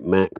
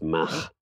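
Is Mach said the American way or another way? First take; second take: American; other. First: Mach is said with the American pronunciation. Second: Mach is said with a non-American pronunciation. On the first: "in the States they say Mach" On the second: "surely it's Mach"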